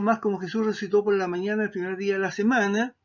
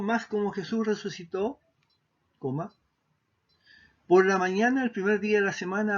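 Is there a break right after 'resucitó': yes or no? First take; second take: no; yes. First: There is no break right after resucitó. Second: There is a break right after resucitó.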